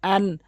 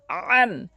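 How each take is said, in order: First: Said in the usual way. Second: আন begun with a squeezed throat; slow আন, press the vowel from the throat; pressed ayn. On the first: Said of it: "এটি চাপ দিয়ে". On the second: Shown as a demonstration. Teacher shows ayn, throat-pressed আন. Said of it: "আইনটি চাপ দিয়ে উচ্চারণ করবেন".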